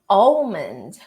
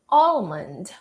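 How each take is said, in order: First: The L sound is pronounced in the middle. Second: The same.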